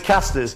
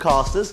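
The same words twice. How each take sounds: First: The word is said in a northern accent. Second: The word is said in a posh accent. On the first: "I've got to go back in my northern accent" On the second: "that's my posh way of saying casters"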